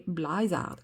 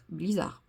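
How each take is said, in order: First: "Blizzard" said as "blazar", first vowel like a in "ah"; first try at the name. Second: "Blizzard" said as French "bli-zar", clear i, no final d; corrected name. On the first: Painter reading a paint name aloud to viewers, fumbling "Blizzard" as "blazar". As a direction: stumble on "Blizzard" with an open a, "blah-zar". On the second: Painter correcting herself to viewers, "Blizzard" as "bli-zar". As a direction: correct "Blizzard" to "blee-zar" with a small rising tone. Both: Shown as a demonstration. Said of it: "Vous moquez pas de mon accent".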